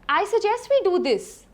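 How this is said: The voice rises at the end.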